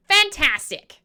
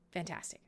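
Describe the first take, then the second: First: Fantastic said higher and louder, bursting; big bright cheer; loud and excited. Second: Fantastic said low and soft, flat; a low, quiet echo; quiet, deflated. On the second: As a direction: mutter it under your breath. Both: Shown as a demonstration.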